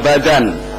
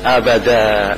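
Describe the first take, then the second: First: The word ends with an n sound. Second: The word ends on a bare vowel. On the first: The reading continues without stopping. "Kalau membacanya diteruskan itu dibaca abadan" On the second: The reading stops here. "kalau wakof dibaca abada"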